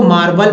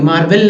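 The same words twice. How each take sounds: First: मार्बल ending in a neutral "-bal"; correct pronunciation. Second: मार्बल ending in "-bel"; wrong "-bel" pronunciation. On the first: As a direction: say मार्बल with an unstressed "a" in the last syllable. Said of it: "तो अ पढ़ते हैं". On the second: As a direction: say मार्बल with an "e" sound in the last syllable. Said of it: "ए नहीं पढ़ेंगे". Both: Shown as a demonstration.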